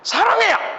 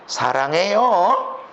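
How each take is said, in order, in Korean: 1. 짜증 나고 화난 것처럼 들려요. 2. 비웃고 깔보는 것처럼 들려요. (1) "화가 나서" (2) "비웃는 거"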